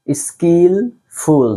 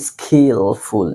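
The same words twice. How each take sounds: First: স্কিলফুল slowly with a clear k sound after s, not kh; correct pronunciation. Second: স্কিলফুল with an aspirated kh after s, like খ; wrong pronunciation. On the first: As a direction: say স্কিলফুল stretched out with a crisp k. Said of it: "এখানে খ বলার দরকার নেই, এখানে কই বলবেন". (স্কিলফুল ধীরে, স এর পরে পরিষ্কার ক) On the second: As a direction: demonstrate the mistake, saying স্কিলফুল with খ. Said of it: "এখানে খ বলার দরকার নেই". (ভুল উচ্চারণ: স্কিলফুল খ দিয়ে) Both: Shown as a demonstration.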